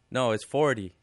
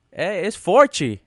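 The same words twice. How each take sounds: First: Correcting forty calmly; teacher's correct forty. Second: Put-on slow, high, loud Portuguese-accented forty; Brazilian student's forty. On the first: Shown as a demonstration.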